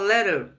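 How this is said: The word is said with an American accent. "o americano fala letter"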